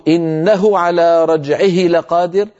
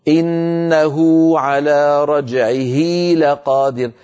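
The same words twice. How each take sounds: First: إنه على رجعه لقادر with short u in إنه and short i in رجعه; short vowel, no lengthening. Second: إنه stretched to innahū and رجعه to rajʿihī, slow; lengthened hā' vowels. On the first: Teacher showing the unlengthened reading: short hā' vowels. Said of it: "بدل ما يقولوا". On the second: Teacher showing the lengthened reading: drawn-out hā' vowels. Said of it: "كانوا يمطون حركة الهاء". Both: Shown as a demonstration.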